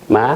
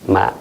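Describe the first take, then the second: First: Said with the tone meaning mother. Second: Said with the tone meaning seedling. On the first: The word means mother. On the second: The word means a young rice seedling. "jeune pousse de, de blé, de riz"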